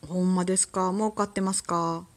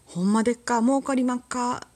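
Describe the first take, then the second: First: Said in the usual way. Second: Higher, louder mock Kansai accent; imitation fake Kansai speech; fake Kansai dialect. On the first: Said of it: "まあ普通に言うならね". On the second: Shown as a demonstration. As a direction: put on a hammy Kansai merchant phrase. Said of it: "エセ関西弁八".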